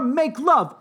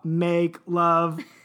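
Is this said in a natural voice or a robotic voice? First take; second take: natural; robotic. First: It is said in a natural human voice. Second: It is said in a robotic, mechanical voice.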